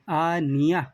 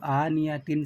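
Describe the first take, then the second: First: The word ends with a soft 'h' sound. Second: The word ends with a nasal 'tin' sound. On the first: The reader stops on this word. "वो हाय साकिना हा बन जाती है" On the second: The reading continues without stopping. "यहाँ पर वक़्फ़ करना हो तो"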